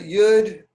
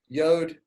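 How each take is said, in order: First: The vowel is an 'oo' sound. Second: The vowel is an 'oh' sound. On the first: This is the name commonly learned growing up. The speaker calls it wrong. "I learned it as Yud" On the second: This is the name taught as correct in Hebrew instruction. The speaker calls it right. "the correct pronunciation of the letter is Yod"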